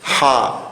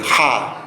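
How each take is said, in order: First: "Ja" with a soft, English-style h; "Ja" as a light aspirated h. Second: "ja" with a strong back-of-throat h; "ja" as a hard throaty fricative. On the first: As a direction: say "Ja" gently, like the h in hello. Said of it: "Esta letra se pronuncia bien suave". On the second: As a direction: say "ja" with a forceful Quechua q rasp. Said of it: "Y se pronuncia fuerte". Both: Shown as a demonstration.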